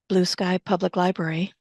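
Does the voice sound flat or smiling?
flat. The voice sounds flat and unfriendly. The speaker calls it wrong. "you could hear someone answer the phone like this"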